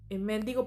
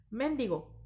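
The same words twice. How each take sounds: First: Mendigo stressed on the middle syllable, menDIgo. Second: Mendigo stressed on the final syllable, mendiGO; stress on the last syllable. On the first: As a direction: lean on the DI of mendigo. (acento en la penúltima: menDIgo) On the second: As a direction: land firmly on the GO of mendigo. (acento en la última sílaba: mendiGO) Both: Shown as a demonstration. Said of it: "a excepción del acento que lleva".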